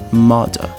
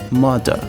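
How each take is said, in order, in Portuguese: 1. Tem um R britânico suave e sutil. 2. Tem um R britânico suave e sutil.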